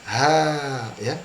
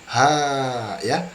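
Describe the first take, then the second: No difference in how they are said.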